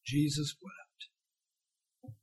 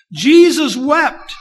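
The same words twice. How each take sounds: First: Whispered almost, very slow and soft; hushed awe, drawn out slowly. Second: Loud, very slow, higher proclamation; preacher booming the verse slowly; proclaimed. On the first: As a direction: let the two words fall quietly. Quiet reading of famous verse. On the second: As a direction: ring out each word to the congregation. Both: Acted.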